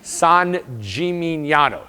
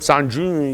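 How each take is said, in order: First: The name is pronounced clearly and fully. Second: The name is slurred and mumbled over. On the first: The speaker calls it right. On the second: The speaker calls it wrong.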